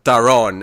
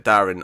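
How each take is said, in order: First: It sounds unlike the common name Darren. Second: It sounds like the common name Darren. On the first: This is the name as its owner says it. The speaker calls it right. "as he corrects him" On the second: This is the mistaken reading of the name. The speaker calls it wrong. "he sees it as Darren because you know human name"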